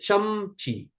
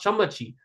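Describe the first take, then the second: First: No vowel is sounded between m and ch. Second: A short vowel is sounded between m and ch. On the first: The speaker calls it right. "Why is it chamchi?" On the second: The speaker calls it wrong. "Why is it not chamachi?"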